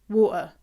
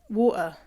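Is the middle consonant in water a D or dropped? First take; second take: dropped; dropped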